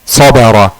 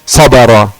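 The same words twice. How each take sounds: Both takes have the same delivery.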